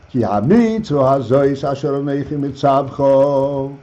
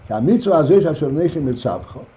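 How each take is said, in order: First: Slow, measured reading of the Hebrew verse. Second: Fast run through the Hebrew verse; quick verse recital. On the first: Rabbi reading the verse to his students, slow and measured. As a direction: lay out each word of the verse slowly. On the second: Rabbi repeating the verse in passing, fast and light. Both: Shown as a demonstration.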